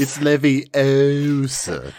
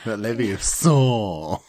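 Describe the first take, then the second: First: "Leviosa" said slowly as le-vi-O-sa, long o; prim know-it-all correction; Leviosa stressed on o. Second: "Leviosa" drawn out as le-vi-o-SAR, ending dragged; mock the wrong pronunciation slowly; prim mockery of the wrong way; Leviosa stressed on sa. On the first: Retold or imitated. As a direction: correct pronunciation, slow and prim. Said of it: "Hermione correcting Ron, film quote". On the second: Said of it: "Hermione mocking Ron's version".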